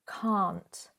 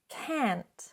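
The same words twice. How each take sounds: First: It has a long open 'ah' vowel. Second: It has a short flat 'a' vowel. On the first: "in British English ... ah, that longer sound" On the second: "But in American English"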